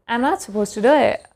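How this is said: American accent, with the final t dropped. "In American accent they will say like"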